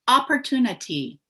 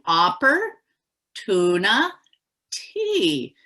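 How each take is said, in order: First: The syllables are run together quickly as one word. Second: Three separate words are said with pauses between.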